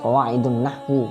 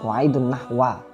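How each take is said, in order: First: The last word ends with an u vowel. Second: The last word ends with an a vowel. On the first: "jangan dibaca qawaidun nahwu. Nah, kan keliru" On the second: "Kan keliru"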